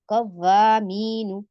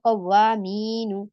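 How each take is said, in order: The two takes are said the same way.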